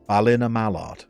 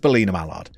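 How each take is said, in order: First: The first syllable has a non-E vowel sound. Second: The first syllable has an E vowel sound. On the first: The speaker calls it right. "It's pronounced Bal in a Mallard" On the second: The speaker calls it wrong. "No E sound"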